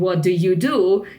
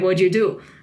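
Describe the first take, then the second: First: Each word is said separately and clearly. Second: The words are reduced and run together. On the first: "instead of uh, saying what do you do, you will never hear it" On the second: "typically you will hear like"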